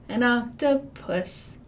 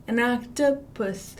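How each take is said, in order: Both takes have the same delivery.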